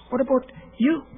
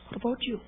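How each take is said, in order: First: Said in the usual way. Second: Softer, searching repeat of the question; hushed echo of the question; quiet repeat. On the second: Real, not acted. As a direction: ask it again gently, almost to yourself.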